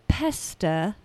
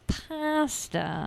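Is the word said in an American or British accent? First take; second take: British; American. First: The word is said with a British vowel. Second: The word is said with an American vowel.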